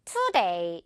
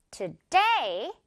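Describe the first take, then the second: First: Today with TO stressed instead of day; wrong stress on to. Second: Today with DAY punched, to light; stress on day. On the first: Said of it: "이렇게 to에 강세 주는 친구들 있으면 안 됩니다". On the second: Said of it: "이렇게 day 부분을 강하게 해주는 거예요". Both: Shown as a demonstration.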